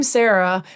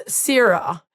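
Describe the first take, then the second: First: Said in the usual way. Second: "Sarah" said the New Zealand way, SAH-rah, with an open ah vowel; "Sarah" drawn out slowly in a Kiwi accent; Kiwi pronunciation. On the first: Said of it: "our names are spelled the same, but I'm Sarah". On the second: Shown as a demonstration. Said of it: "How was my Kiwi accent?".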